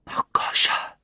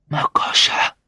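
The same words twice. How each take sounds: First: Weak whisper of a name; barely manage to whisper it. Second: More forceful whisper. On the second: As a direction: push the name out in a whisper. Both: A narrator's reading. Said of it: "I managed to whisper".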